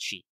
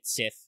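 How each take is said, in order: First: It is said with an sh sound, like she. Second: It ends with a th sound, like sith. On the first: The speaker calls it right. "it's pronounced she" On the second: The speaker calls it wrong. "I've heard some people say, still say it Sith. No"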